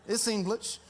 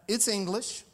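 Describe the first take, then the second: Both takes have the same delivery.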